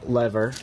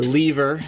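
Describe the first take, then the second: First: It is said in an American way. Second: It is said in a British way.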